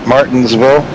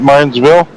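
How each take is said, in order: First: Every syllable of the word is fully pronounced. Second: The word is clipped, with sounds dropped. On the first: The speaker calls it right. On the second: The speaker calls it wrong.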